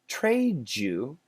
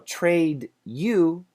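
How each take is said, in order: First: The D and Y blend into a J sound. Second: A plain D sound comes before you.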